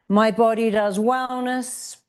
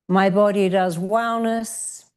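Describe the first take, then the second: The two takes are said the same way.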